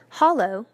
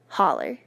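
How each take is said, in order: First: The word ends with an oh sound. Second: The word ends with an er sound.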